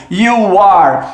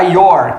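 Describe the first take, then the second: First: "You are" as two separate words; uncontracted pronunciation. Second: "your" as one syllable, you and are merged; contracted pronunciation. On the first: Teacher showing students the verb to be, "You are" uncontracted. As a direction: say "You are" in full, both words sounded. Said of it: "a pronúncia da contração do you are". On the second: Teacher showing students the contraction, "your" said as one word. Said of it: "quando você pronuncia you are com a contração". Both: Shown as a demonstration.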